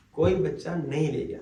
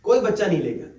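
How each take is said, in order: First: کوئی بچہ نہیں لے گیا said again lower and softer, after a long pause; quiet sad repeat. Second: Said in the usual way. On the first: Shown as a demonstration.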